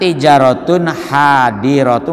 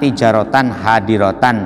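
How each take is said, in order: First: The words end with an -un sound. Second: The words end with an -an sound. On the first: This is the standard nominative reading. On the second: This is the alternative accusative reading.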